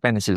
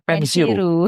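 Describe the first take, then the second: First: The word ends in a plain L sound. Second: The word ends in an R plus U sound. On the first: "orang Jepang nggak mungkin mengatakan pensil" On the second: "tapi pensiru"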